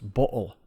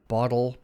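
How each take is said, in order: First: The first vowel is a deep, very rounded oh. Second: The first vowel has ordinary, less rounded lips.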